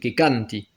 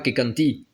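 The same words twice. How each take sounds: First: The stress is on the first syllable. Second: The stress is on the last syllable. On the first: The speaker calls it right. "c'est accentué sur le A de canti" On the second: The speaker calls it wrong. "C'est pas sur la terminaison. C'est pas que canti"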